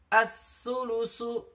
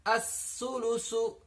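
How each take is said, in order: The two takes are said the same way.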